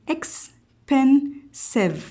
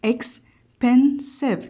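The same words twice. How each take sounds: First: Said in the usual way. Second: Expensive said very slowly as ex-pen-sive, each syllable apart; teacher sounding out expensive in three syllables; split into syllables. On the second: Shown as a demonstration. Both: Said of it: "كأنه قسمناها إلى ثلاثة سيلابل عند نطقها".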